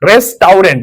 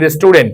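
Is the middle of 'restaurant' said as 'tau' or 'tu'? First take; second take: tau; tu. First: The middle syllable is said as 'tau'. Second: The middle syllable is said as 'tu'.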